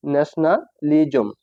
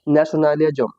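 First: Careful, slowed nationalism with a gap inside; slow pronunciation demo. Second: Said in the usual way. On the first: Shown as a demonstration. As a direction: break nationalism slowly into ন্যাশনা and লিজম. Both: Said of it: "আমি এই বারবার উচ্চারণ করি".

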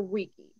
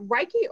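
First: Reiki said as REE-kee; Reiki, first vowel as in "see"; alternative pronunciation. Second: Reiki said as RYE-kee; Reiki, first vowel as in "eye"; unsure pronunciation. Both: Shown as a demonstration. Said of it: "is it Reiki or Reiki?".

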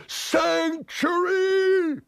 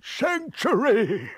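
First: Very high, hugely stretched wail; desperate imploring. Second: High, drawn-out plea; imploring. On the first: Wild-eyed man begging the aunt once more, desperately imploring. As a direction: wail the plea out as long as it will go. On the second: Wild-eyed man begging the aunt for refuge, imploring. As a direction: beg in a high, slow wail. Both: Acted. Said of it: "he implored".

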